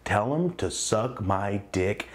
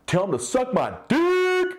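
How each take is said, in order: First: Slow, stretched-out delivery; drawn-out lower retelling; dragged out. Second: High, loud, slow yell; big drawn-out yell. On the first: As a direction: drag every word out long. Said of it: "dragged out". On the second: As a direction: shout it across the room at him. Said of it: "I yell just like that". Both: Retold or imitated.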